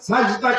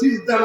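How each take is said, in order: First: The first vowel is an open 'a' sound. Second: The first vowel is a close 'i' sound. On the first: The speaker calls it right. "সাজদা কিন্তু সিজদা না" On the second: The speaker calls it wrong. "সিজদা না"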